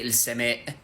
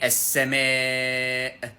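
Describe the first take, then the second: First: The long vowel is cut short. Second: The long vowel is drawn out. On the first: The speaker calls it wrong. "you don't say السماء in the Quran" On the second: The speaker calls it right. "you need to extend that one when you're saying it"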